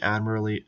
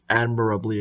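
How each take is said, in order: First: "admirably" slurred, missing its middle syllable; slip of the tongue. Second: "admirably" with every syllable sounded; self-corrected pronunciation. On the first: Reviewer rating the drop test, slipping on "admirably" so the "-ab-" drops out. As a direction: stumble on "admirably", dropping the "-ab-". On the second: Reviewer correcting a slip in the drop test verdict, "admirably" said with all syllables. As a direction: restore the "-ab-" in "admirably". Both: Real, not acted. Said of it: "excuse me".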